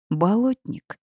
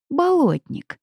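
First: Higher, rising confirmation; confirming. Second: High, falling exclamation; delighted surprise. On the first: Heroine agreeing with her companions, nodding confirmation. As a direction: say it as a nod of agreement. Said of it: "кивнула я". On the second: Heroine recognising the swamp creature, delighted surprise. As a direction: cry it out high in pleased surprise. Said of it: "от неожиданности я прижала ладони к щекам и улыбнулась". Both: A narrator's reading.

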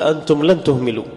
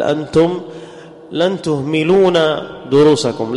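First: تهملوا said with no final نون, clipped end; teacher gives the right form تهملوا, cleanly ending on the vowel; correct form. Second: Teacher demonstrates the mistake تهملون, lingering on it; wrong form. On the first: Teacher corrects the students with تهملوا, firm and clear. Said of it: "فأقول". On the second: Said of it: "ومن الخطأ أقول". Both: Shown as a demonstration.

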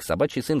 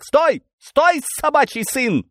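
First: Said in the usual way. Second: High, loud, threatening yell; high-pitched police shout, drawn out; menacing shout. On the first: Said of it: "конечно, и ухом не повёл". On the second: Acted. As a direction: shout to halt a fleeing man. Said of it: "грозно вскричал один из них".

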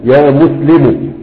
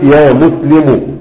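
First: Slow demo. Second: Said in the usual way. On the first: Shown as a demonstration. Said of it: "لو أنت قلت يا مسلم". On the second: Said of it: "لو أنت قلت".

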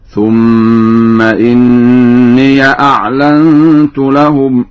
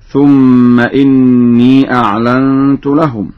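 First: إني said inniya; very slow chant, ya with a in إني; Warsh fatha ya. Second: إني ends in a long ee; slow reading, innee with no vowel on ya; standard silent ya. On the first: Teacher demonstrates Warsh's second example, open ya ending. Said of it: "قرأ ورش في الموضعين معا بفتح الياء". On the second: Teacher quotes the second verse, silent ya. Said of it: "بفتح الياء". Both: Shown as a demonstration.

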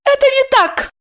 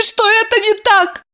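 First: High, sharp, clipped-off denial; curt retort. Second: High, tearful plea, stress on "это"; tearful pleading. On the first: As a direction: cut her off firmly. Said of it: "отрезала Евдокия". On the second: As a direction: beg with "это" leaned on, near tears. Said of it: "со слезами взмолилась". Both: A narrator's reading.

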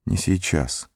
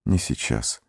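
First: Whispering. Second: Very soft, lower, weary whisper. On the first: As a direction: murmur it again, barely audible. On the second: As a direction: breathe it out, drained. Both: A narrator's reading. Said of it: "прошептал он".

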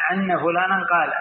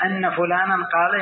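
First: "عنا" opening on a throaty ayn instead of hamza. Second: Said in the usual way. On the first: Shown as a demonstration. Teacher showing an old dialect, "عنا" with ayn for hamza. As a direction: begin "عنا" with ayn in place of a glottal stop. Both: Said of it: "بعضهم يقلب الهمزة عين".

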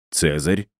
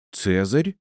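First: Said in the usual way. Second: Higher, startled exclamation; surprised rising question; exclaimed. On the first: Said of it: "переспросил я". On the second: Acted. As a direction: cry out the name in surprise. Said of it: "воскликнула кошкина мама".

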